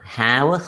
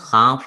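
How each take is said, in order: First: The word ends with a voiced v sound. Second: The word ends with a voiceless f sound. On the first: The word is said on its own. "നമ്മളൊരു ഹാവ് മാത്രമായിട്ട് പറയുമ്പോൾ ഹാവ് തന്നെയാണ്" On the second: The word is used within connected speech. "വ് എന്നുള്ള sound ഫ് sound ആവും"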